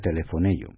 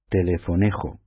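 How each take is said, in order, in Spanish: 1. La j es un sonido suave, como una y. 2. La j es un sonido fuerte de garganta. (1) "pues se pronuncia telefonello" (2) "En castellano lo pronunciaríamos telefonejo"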